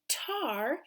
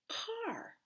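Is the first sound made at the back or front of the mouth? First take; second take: front; back. First: The first sound is made at the front. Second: The first sound is made at the back. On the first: The speaker calls it wrong. "you said tar" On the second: The speaker calls it right. "let's do our back sound"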